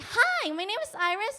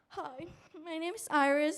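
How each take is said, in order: First: The voice is lively, bright and full of energy. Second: The voice is flat, low-energy and sleepy. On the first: The speaker seems engaged and welcoming to viewers. The speaker calls it right. "you need to like have like an engine energy" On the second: The speaker seems sleepy and unsure what to do. The speaker calls it wrong. "you say like monotone"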